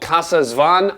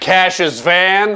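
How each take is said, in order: First: The name is said in a neutral accent. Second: The name is said in a Texan accent.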